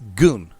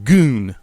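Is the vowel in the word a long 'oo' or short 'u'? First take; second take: short u; long oo. First: The vowel is a short 'u' sound. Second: The vowel is a long 'oo' sound. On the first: The speaker calls it right. "a short U" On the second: The speaker calls it wrong. "He's pronouncing it as G O O N"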